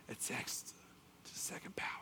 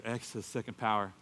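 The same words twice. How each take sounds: First: Very soft, secretive whisper; hushed imitation of a teacher's whisper; whispered answer. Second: Said in the usual way. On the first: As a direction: slip the answer to a student unheard. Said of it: "he whispered to me the answer".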